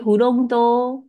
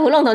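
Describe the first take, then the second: First: フロント drawn out slowly on a high, level tone; sustained high pitch. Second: フロント with an English stress and falling tune; English-style pronunciation. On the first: Shown as a demonstration. Teacher models hotel front desk, フロント held high. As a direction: keep フロント high to the end, no drop. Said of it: "维持高音". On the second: Retold or imitated. Teacher mimics student's slip, フロント said like English. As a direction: say フロント as if it were English "front". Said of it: "你在念英文了哦".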